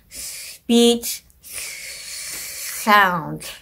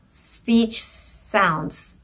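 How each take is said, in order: First: Air escapes out the sides of the tongue. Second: The s sounds have a whistly quality. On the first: "is leaking out into the sides" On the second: "the dentalized one could sound something like this"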